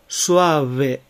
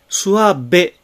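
First: The b is a soft fricative with lips apart. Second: The b is a full stop with closed lips. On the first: The speaker calls it right. "ここでは摩擦音になります" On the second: The speaker calls it wrong. "スワベではなく"

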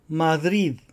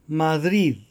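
No difference in how they are said.

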